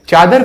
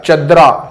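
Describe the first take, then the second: First: The word ends in a consonant sound. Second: The word ends with an added vowel sound. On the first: It is the standard form. The speaker calls it right. "चादर बिछी रहती है" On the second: It is the rural village form. The speaker calls it wrong. "चदरा नहीं, चदरा गांव के लोग बोलते हैं"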